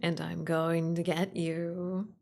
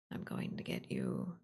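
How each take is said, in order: First: Slow, teasing monster threat; creepy playful under bed whisper. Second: Low, ghostly monster whisper; creepy playful under bed whisper. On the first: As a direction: draw it out, playfully menacing. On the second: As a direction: breathe it like a thing under the bed. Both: Pretend. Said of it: "the thing under your bed".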